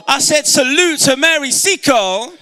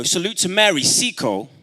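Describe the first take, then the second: First: High, loud call to the crowd; rallying shout. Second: Said in the usual way. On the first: Real, not acted. Speaker rallying the audience to salute a heroine, rousing shout. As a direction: shout it out to rouse the hall. Rallies crowd after asking for woo.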